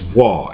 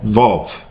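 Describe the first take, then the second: First: The word begins with a W sound. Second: The word begins with a V sound. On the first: "Other ones pronounce it as" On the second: "Some scholars pronounce this uh, symbol right here for the V as uh"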